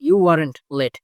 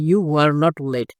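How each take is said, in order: First: 'Were not' is shortened into one word. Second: 'Were not' is said as two full words. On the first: "যদি কন্ট্রাকশনে উচ্চ এসে pronunciation করেন" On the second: "সরাসরি সম্পূর্ণ word pronunciation করেন"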